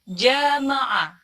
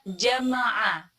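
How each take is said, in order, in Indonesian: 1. Vokal setelah konsonan pertama dipanjangkan. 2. Vokal setelah konsonan pertama pendek. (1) "kebanyakan orang membacanya jamaah" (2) "kata jama'a yang artinya mengumpulkan"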